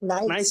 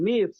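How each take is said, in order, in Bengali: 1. স্বরটা 'eye' এর মতো শোনায়। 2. স্বরটা 'ee' এর মতো শোনায়। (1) "নাইস না" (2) "উচ্চারণ হচ্ছে নিস"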